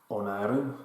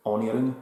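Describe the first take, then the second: First: Said in the usual way. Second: Onirim in an Italian accent. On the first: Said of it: "Onirim, as I like to say". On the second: Shown as a demonstration. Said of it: "in my Italian accent".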